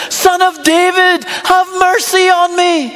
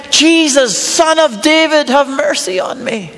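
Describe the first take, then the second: First: Slow, higher-pitched call for mercy; louder retold yell. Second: Blind beggar calling out, lightly raised; mild retold shout. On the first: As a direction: cry out insistently, drawing the words out. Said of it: "He just yells louder". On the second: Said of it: "he shouts out".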